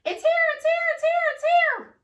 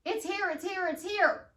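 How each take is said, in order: First: Chanted, much higher and louder, gleeful sing-song; chanted, cheer it out like a celebration; excited chant. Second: Calm affirmation. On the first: Chanted, coach showing clients how to cheer it excitedly. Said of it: "I turn around in my chair and you see my hands". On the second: Coach repeating the affirmation for clients, calmly. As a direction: say it simply, settled and sure. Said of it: "That's all you see". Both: Shown as a demonstration.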